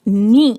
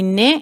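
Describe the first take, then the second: First: The vowel sounds like a short, thin 'ee'. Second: The vowel sounds like a broader 'e'. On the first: The speaker calls it right. "नी की आवाज को छोटा रखेंगे और बारीक" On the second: The speaker calls it wrong. "मैंने आवाज को बारीक नहीं पढ़ा"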